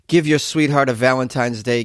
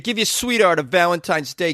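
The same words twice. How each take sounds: First: It is read in the speaker's ordinary accent. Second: It is read in a put-on Bronx accent.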